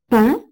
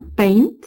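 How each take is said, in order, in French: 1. Une voyelle nasale, sans consonne finale. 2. La consonne nasale après la voyelle se prononce. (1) "comportent des voyelles nasales" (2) "ces mots se prononceraient respectivement chez eux"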